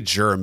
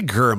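First: The word begins with a soft G sound. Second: The word begins with a hard G sound. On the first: This is how the speaker prefers to say it. "I say germ because it's easier on the ears" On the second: This is how the other person says it. "You say GERM"

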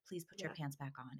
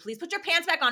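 First: It is said calmly and quietly. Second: It is said loudly and sternly. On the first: The request is patient and gentle. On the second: Patience has run out after many requests.

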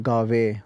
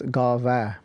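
First: The word ends with an 'ay' vowel. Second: The word ends with an 'ah' vowel. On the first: The speaker calls it wrong. "read Guru Nanak Dev Ji's Japaji in a rush, it can turn into Gave" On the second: The speaker calls it right. "so it's Gava"

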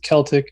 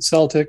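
First: The word begins with a hard K sound. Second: The word begins with a soft S sound. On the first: This is how the people themselves say it. "I believe they pronounce it Celtic" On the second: This is the basketball team's pronunciation. "I watch too much basketball, so I call it Celtic"

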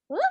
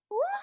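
First: It is squeaked in a confused way. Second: It is squeaked in a sad way.

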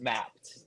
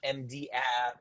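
First: It is said as the single word mapped. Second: It is said as letters M, D, then app. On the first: The speaker calls it right. "it's just mapped" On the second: The speaker calls it wrong. "it's not MD app"

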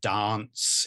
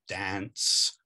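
First: It is said with a British vowel. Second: It is said with an American vowel.

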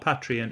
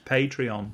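First: The first syllable does not sound like 'pay'. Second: The first syllable sounds like 'pay'. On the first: The speaker calls it wrong. "Not Patreon" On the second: The speaker calls it right. "it's Patreon. And he wrote it out very nicely, PAYTREEON"

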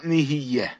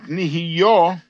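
First: The last vowel is an 'e' vowel. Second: The last vowel is an open 'a'-type vowel. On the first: It is presently coming into existence. The speaker calls it wrong. "and not nih’yah" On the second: Creation in both the past and the present. The speaker calls it right. "we should pronounce it nih’yah"

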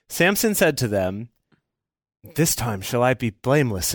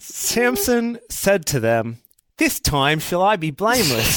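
First: It is read in an American accent. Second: It is read in an Australian accent. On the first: "channel Chris Hemsworth doing an American accent" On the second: "I cannot abide the entire story of Samson with that accent"

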